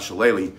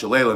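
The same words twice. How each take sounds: First: The word is said with a non-Irish pronunciation. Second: The word is said with its Irish pronunciation. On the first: The speaker calls it wrong. "not Shillelagh" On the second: The speaker calls it right. "since he's Irish, he told me it's pronounced Shillelagh"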